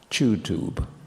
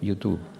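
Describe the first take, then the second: First: It has British stress on the first syllable. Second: It is said with a Spanish pronunciation. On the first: "is normally now pronounced in G B" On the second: "We say, in Spanish, say YouTube"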